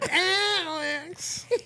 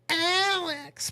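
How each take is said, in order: First: The name is said in an annoying, crowing voice. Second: The name is said in a normal voice.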